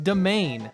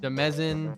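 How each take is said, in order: First: It is said with two syllables, doh-MAIN. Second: It is said with three syllables, deh-MEZ-in. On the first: The speaker calls it right. "This shit's pronoun- pronounced domain" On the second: The speaker calls it wrong. "We got people saying Demezin"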